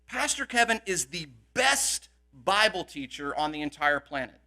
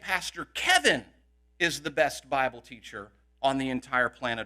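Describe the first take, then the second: First: The word best carries the main stress. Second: The word Kevin carries the main stress. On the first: No one is better than him. "what that means is no one is better" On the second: He, not the other pastors, is the best. "we know that Pastor Henry and Pastor Mallet aren't"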